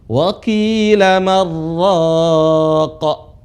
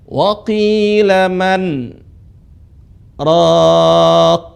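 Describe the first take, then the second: First: The n merges completely into the following r. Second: The n is pronounced, with a brief break. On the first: This follows the usual tajwid rule. The speaker calls it wrong. "nun lebur" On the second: This is an exception to the rule. The speaker calls it right. "tidak lebur. Pengecualian"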